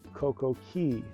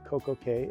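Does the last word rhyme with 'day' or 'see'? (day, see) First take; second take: see; day. First: The last word rhymes with 'see'. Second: The last word rhymes with 'day'. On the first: "which is the correct pronunciation of the Keys" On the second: "It rhymes with day"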